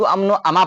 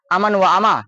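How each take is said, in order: First: अमन व अमा linked as "amno ama"; fuse अमन व into "amno"; knowledgeable reader's reading. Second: अमन व अमा with व as a separate "wa"; unfamiliar reader's reading. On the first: Teacher shows how Urdu knowers read, words linked. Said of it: "Urdu से उनको वाकफियत है". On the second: Teacher shows how non-Urdu readers read, words unlinked. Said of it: "Urdu नहीं जानता है". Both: Shown as a demonstration.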